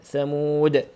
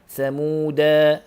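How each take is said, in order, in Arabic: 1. تنتهي الكلمة بالحرف الصامت د. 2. تنتهي الكلمة بصوت a طويل.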